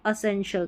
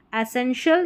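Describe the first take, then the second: First: First vowel of "एसेंशियल" as short "uh": uh-sen-shul; schwa onset. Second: First vowel of "एसेंशियल" as open "eh": eh-sen-shul; open E onset. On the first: Teacher giving second option, "एसेंशियल" starting with "uh". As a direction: begin "एसेंशियल" with a neutral "a". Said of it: "से अ या". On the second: Teacher giving first option, "एसेंशियल" starting with "eh". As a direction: begin "एसेंशियल" with a clear "ae" sound. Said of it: "या एसेंशियल दोनों तरीके". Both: Shown as a demonstration.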